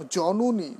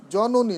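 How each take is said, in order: First: জননী as jonuni, middle vowel closed toward u; correct pronunciation. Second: জননী as jononi, middle vowel an open o; wrong pronunciation. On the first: Teacher showing students the right জননী, correct pronunciation. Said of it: "জননী not". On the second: Teacher showing students what to avoid, wrong pronunciation. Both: Shown as a demonstration.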